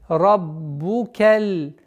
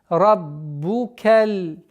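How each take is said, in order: Both takes have the same delivery.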